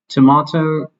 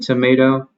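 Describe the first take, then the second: First: It is said in a non-American accent. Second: It is said in an American accent. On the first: This is the unfamiliar way others say it. "just kind of sounds weird to me because I'm not used to it" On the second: This is the speaker's own usual way of saying it. "I would also pronounce it tomato"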